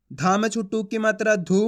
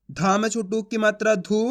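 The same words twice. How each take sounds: The two takes are said the same way.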